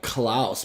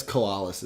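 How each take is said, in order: First: "Klaus" run together as one syllable, like "klouse"; mistaken pronunciation. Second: "koalas" opened into three syllables, ko-AH-lus; corrected pronunciation. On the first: Fan admitting how they always said the name, mistaken "Klaus". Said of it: "I always thought it was like". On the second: Fan conceding how you pronounce it, corrected "koalas". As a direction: say "koalas" with a separate "ah" in the middle. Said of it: "is how you pronounce it". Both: Shown as a demonstration.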